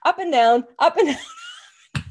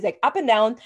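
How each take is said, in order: First: Climbing up and down, breaking into a high laugh; rising laugh on the last down. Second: Said in the usual way. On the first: Real, not acted. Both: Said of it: "like, a spiral staircase".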